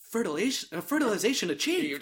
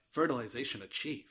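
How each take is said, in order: First: Softer clinical announcement with a laugh; mock sci-fi computer voice; mock robotic report. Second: Low, soft, lifeless line reading; flat wooden delivery. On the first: Shown as a demonstration. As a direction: read it like a lab computer. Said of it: "I probably did it better than her". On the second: Retold or imitated. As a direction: say it as badly and flatly as the actress. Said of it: "I think she was like".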